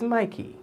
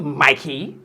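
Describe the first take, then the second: First: Mikey softer and smoother; said with meaning. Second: Mikey slapped out hard and drawn out; tongue-slapped name. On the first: Shown as a demonstration. Host corrects Mikey, saying it with meaning. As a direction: ease gently into Mikey with care. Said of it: "Say it with meaning". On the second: Retold or imitated. Host mocks the careless Mikey, slapping it out. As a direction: slap the tongue all over Mikey. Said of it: "They just slap the tongue all over it".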